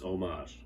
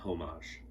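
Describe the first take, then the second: First: The word starts without an H sound. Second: The word starts with an H sound. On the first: The speaker calls it right. "the H is silent. It's homage" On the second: The speaker calls it wrong. "not homage"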